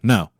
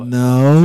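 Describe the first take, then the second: First: The voice falls at the end. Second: The voice rises at the end.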